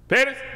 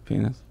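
First: The word is shouted very loudly. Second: The word is said at normal volume. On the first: The game has escalated. "say it louder than the person before them. And so you get to a point where people would be like" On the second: The game is just starting. "somebody would just go"

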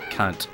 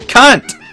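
First: The word is said at normal, softer volume. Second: The word is said noticeably louder.

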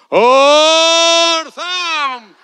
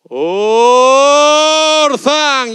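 First: The word is said very loudly, with maximum force. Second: The word is said loudly, with chest force. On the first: "Y ahora que venga el tsunami" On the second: "con más peito"

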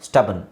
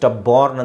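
First: The second syllable has a reduced short vowel. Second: The second syllable has a full 'barn' vowel. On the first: The speaker calls it right. "ಸ್ಟಬನ್ ಅಂತ ಹೇಳ್ಬೇಕು" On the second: The speaker calls it wrong. "ಸ್ಟಬಾರ್ನ್ ಅಂತ ಹೇಳ್ಬಾರ್ದು"

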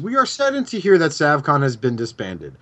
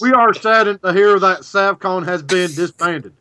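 First: It is read in a plain, neutral accent. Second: It is read in a put-on southern accent.

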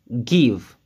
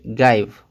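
First: The vowel is a short 'ih' sound. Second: The vowel sounds like the letter name 'eye'. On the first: The speaker calls it right. "Ça se prononce give" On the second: The speaker calls it wrong. "on va pas la prononcer give"

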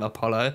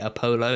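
First: The ending does not sound like polo. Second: The ending sounds like the word polo. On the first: The speaker calls it right. "instead of" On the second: The speaker calls it wrong. "associate it kind of like with the with the polo mints"

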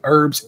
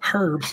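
First: It is said with an American pronunciation. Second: It is said with a British pronunciation.

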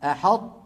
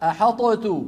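First: The ṭ is held without release before t. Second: The ṭ is released with an echoing bounce. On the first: The first letter is partly assimilated. The speaker calls it right. "لا هذا ولا ذاك، كانت العرب تقول أحطت" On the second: The first letter is fully pronounced separately. The speaker calls it wrong. "ولو أظهرنا ماذا قلنا؟ أحطت بقلقلة الطاء"

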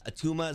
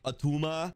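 First: It is said in the speaker's ordinary accent. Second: It is said in a heavy Austrian-style accent.

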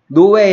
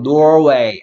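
First: The word is said without an R sound. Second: The word is said with an R sound. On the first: The speaker calls it wrong. "노웨이 아니고" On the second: The speaker calls it right. "R 소리 대주의"

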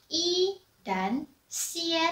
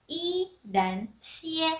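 No difference in how they are said.

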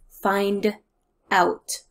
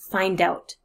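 First: The d and out are said separately. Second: The d runs straight into out.

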